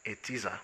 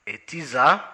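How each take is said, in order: First: Said in the usual way. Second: "A teaser?" repeated louder, rising at the end; puzzled question. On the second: Acted. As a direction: echo the word back, baffled.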